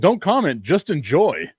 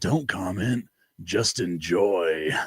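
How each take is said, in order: First: It is said in a plain, ordinary voice. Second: It is said in an imitated, put-on voice.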